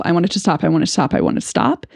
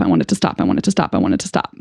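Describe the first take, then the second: First: Repetitive emotional words. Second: Much lower, croaky repeated plea; stuck repetitive plea. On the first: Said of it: "the only words coming out of my mouth". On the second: Reliving her meltdown, a low stuck repeated plea. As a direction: drone the same words like a broken record. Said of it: "what's coming out of my mouth is". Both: Shown as a demonstration.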